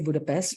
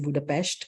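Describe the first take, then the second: First: The name is pronounced the usual English way. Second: The name is pronounced the local Hungarian way. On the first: "we say Budapest" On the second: "the locals say Budapest"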